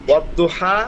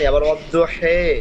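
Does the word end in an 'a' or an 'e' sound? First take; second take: a; e. First: The word ends with an 'a' vowel. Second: The word ends with an 'e' vowel. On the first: This is the reading in the Uthmani copy. "মাসাফি উসমানী" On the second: This is another reading. "আবার"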